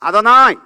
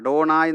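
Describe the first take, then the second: First: The d and n are soft dental sounds. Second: The d and n are hard retroflex sounds. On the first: The speaker calls it right. "അദോനായി എന്ന് പറഞ്ഞാൽ മതി" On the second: The speaker calls it wrong. "നമ്മളീ പക്ക അഡോണായി എന്ന് പറയരുത്"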